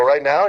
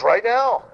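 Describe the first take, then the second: First: Retold startled question, rising at the end; surprised question. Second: Retold emphatic RIGHT NOW, pitched very high; insistent order. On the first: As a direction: ask RIGHT NOW with pitch lifting in surprise. Questions the manager's order.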